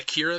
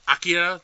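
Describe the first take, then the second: First: The name is said in a plain everyday way. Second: The name is said in a more affected way.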